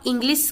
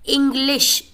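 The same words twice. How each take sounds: First: The word ends with an 's' sound. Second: The word ends with an 'sh' sound. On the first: The speaker calls it wrong. "स कहेंगे, तो ये तो गलत हो गया ना" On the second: The speaker calls it right. "इंग्लिश श"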